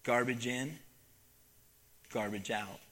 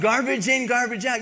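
First: Soft, lower, solemn refrain. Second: High, loud, preachy shout; preaching shout. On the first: Acted. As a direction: let the moral sink in quietly. Solemn moral of the story. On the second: Retold or imitated. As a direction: hammer the lesson home like a preacher. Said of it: "and I preached at 'em".

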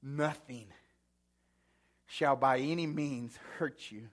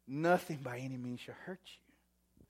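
First: Said in the usual way. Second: Whisper. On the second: Shown as a demonstration.

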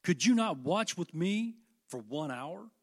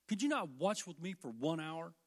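First: Slow, loud rebuke of a sleeping friend; reproachful Jesus. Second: Said in the usual way. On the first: Acted. Jesus rebuking Peter for sleeping, slow and loud. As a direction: press the question with disappointment. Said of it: "he said unto Peter". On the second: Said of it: "repeats the question".

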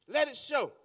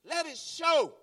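First: Said in the usual way. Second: Preaching shout. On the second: Real, not acted. Preacher urging the congregation, shouting. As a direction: let it show called out higher and loud.

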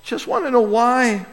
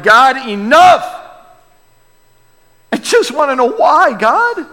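First: Quiet plea. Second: Anguished shout. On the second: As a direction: shout your frustration at God. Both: Retold or imitated. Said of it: "we're like".

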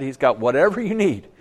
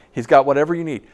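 First: Said in the usual way. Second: Got lifted and pushed harder; stress on got. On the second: Real, not acted. Preacher pressing home the promise with a stressed got. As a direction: hit got, then ride on through. Repeats the line with more weight.

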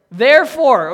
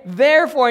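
First: Therefore, louder and higher, landing on a fall; emphatic therefore. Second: Therefore, again raised and louder with a falling end; repeated emphasis. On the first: Preacher names the word the verse sounds like, emphatic. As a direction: punch Therefore like the answer. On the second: Preacher repeats the key word to the congregation, emphatic. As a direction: drive home Therefore. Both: Shown as a demonstration. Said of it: "sounds an awful lot like what word".

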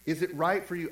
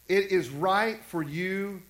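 First: Said in the usual way. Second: "It is right for you" read slowly as a flat statement; misread statement. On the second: Shown as a demonstration. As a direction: pastor showing how he kept misreading the verse, slow flat statement. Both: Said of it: "I was always reading it wrong".

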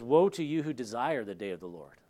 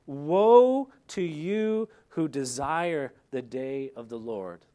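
First: Said in the usual way. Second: Slow, heavy, loud Woe drawn out; "Woe" stretched slow and loud, then the rest falling away; solemn warning. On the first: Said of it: "it says". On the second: Acted. Pastor warning his congregation, slow heavy proclamation.

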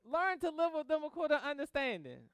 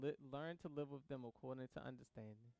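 First: Higher and louder, proclaiming "Learn to live with them"; emphatic preaching of the verse. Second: Soft and low, as if remembering the verse; quiet reflective recall; inner recollection. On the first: Acted. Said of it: "restating the key verse". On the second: Retold or imitated. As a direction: murmur the verse quietly to yourself. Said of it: "immediately went through my mind".

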